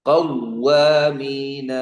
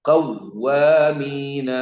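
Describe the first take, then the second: The two takes are said the same way.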